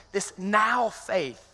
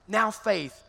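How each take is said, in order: First: "This now faith" stretched very slow, each word held; drawn-out emphasis. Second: Said in the usual way. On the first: Real, not acted. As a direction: lean on "now faith" slowly. Preacher stretches scripture phrase.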